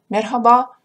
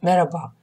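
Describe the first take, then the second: First: A soft h sound is heard in the middle. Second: No h sound is heard in the middle. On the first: The speaker calls it right. "некоторые турки говорят «мерхаба»" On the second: The speaker calls it wrong. "а некоторые турки говорят «мераба»"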